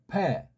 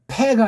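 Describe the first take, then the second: First: It begins with a soft, slightly voiced lip sound. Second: It begins with a hard, plain p sound. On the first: The speaker calls it right. "약간 울림 소리로 부드럽게 내면 돼요" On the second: The speaker calls it wrong. "피 발음"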